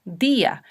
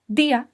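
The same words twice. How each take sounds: First: "día" as DÍ-a, in two syllables; stressed i. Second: "día" as one syllable, dyá; theoretical mispronunciation. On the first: Teacher showing the exception to the rule, "día" with stressed í. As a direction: lean on the í of "día", apart from the a. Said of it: "se pronuncian con fuerza". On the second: Teacher showing what the rule would give, "día" squashed to dyá. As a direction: slide the i of "día" into a stressed a. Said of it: "Yo debería pronunciar teóricamente". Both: Shown as a demonstration.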